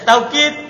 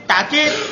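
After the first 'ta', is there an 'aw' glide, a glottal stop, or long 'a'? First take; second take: aw glide; glottal stop. First: The first syllable has an 'aw' glide. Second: The first syllable ends in a glottal stop. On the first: "Yang pertama, tak taukid. Bilwawi, dengan pakai waw" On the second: "Asania yang kedua, takkid. Bilhamzah, pakai hamzah"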